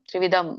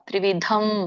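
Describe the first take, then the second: First: The middle consonant is a plain unaspirated d. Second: The middle consonant is an aspirated dh. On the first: The speaker calls it wrong. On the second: The speaker calls it right.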